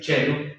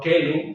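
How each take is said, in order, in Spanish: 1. La palabra empieza con un sonido ch. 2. La palabra empieza con un sonido k duro. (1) "sino se va a decir chelum ... como C H" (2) "no kelum, como se decía en el latín clásico"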